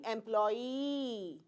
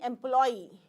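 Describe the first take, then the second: First: The final vowel is drawn out long. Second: The final vowel is kept short. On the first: The speaker calls it wrong. "It would have been a long vowel" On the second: The speaker calls it right. "we are only saying employee"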